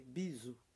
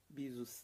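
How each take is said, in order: First: The final S sound is silent. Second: The final S sound is pronounced. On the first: The speaker calls it right. "É biso, tá?" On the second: The speaker calls it wrong. "Em francês você não precisa pronunciar o S no final. Bisos, não"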